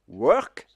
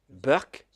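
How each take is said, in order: First: It starts with a W sound, unaccented. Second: It starts with a B sound, Indian English style.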